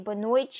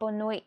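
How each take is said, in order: First: It is said in a Brazilian Portuguese accent. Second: It is said in a European Portuguese accent. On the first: "they say boa noite" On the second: "not boa noite"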